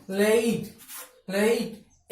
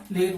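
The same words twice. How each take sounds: First: लेट said carefully with the correct vowel; now the right लेट, clearly; correct pronunciation. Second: लेट said the common wrong way; first give the usual mistaken लेट; wrong pronunciation. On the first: (लेट का सही उच्चारण) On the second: (लेट का गलत उच्चारण) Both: Shown as a demonstration. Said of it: "लेकिन लेट नहीं".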